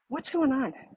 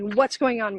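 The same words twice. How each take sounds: First: The tone is gentle and curious. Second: The tone is sharp and judgmental. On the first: The asker wants to understand. The speaker calls it right. "Notice it's not the judgment" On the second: The asker is finding fault. The speaker calls it wrong. "That shuts down communication"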